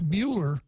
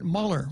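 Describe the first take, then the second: First: The first syllable sounds like the word mule. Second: The first syllable sounds like the word mull. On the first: It brings stubbornness to mind. "Mule brings to, to mind concepts of stubbornness" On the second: It makes the bearer sound like a thinking person. "Robert apparently pronounces it Muller. ... mull, to mull something"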